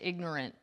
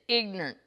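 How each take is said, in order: First: The word is said with standard pronunciation. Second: The word is said with a rural backwoods accent. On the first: The speaker calls it wrong. "if you're from the backwoods, you don't say ignorant" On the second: The speaker calls it right. "You say ignorant"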